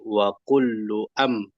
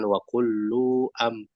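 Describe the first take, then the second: First: The vowel in 'lu' is kept short. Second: The vowel in 'lu' is drawn out long. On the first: The speaker calls it right. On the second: The speaker calls it wrong. "Lu-nya masih seperti panjang bunda. Jadi jangan"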